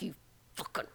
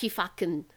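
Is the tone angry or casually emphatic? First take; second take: angry; emphatic. First: It is said angrily through gritted teeth. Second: It is said as casual, mild emphasis.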